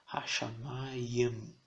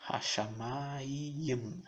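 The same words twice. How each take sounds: No difference in how they are said.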